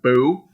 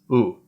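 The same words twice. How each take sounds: First: The b is a hard, firm consonant. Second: The b is soft, with air blown out. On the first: The speaker calls it wrong. "instead of like boo" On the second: The speaker calls it right. "almost like you're you're blowing air out like a hoo sound"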